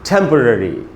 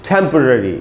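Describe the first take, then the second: First: The third syllable has a weak schwa vowel. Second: The same.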